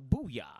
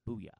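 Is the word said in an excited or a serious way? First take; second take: excited; serious. First: It is shouted with lively, exaggerated excitement. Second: It is said flatly, in a calm, serious tone. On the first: "You don't even have to say it like that" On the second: "You could say it serious"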